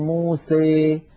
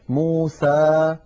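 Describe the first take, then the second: First: The final vowel leans strongly toward 'ee'. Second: The final vowel is a clear open 'a'. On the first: "فيخلط صوت الألف بصوت الياء أكثر من هذا" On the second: "فتحا وسطا، ليس لا فتحا مبالغا فيه ولا فتحا مخلوطا بياء"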